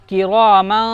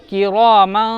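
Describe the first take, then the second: Both takes have the same delivery.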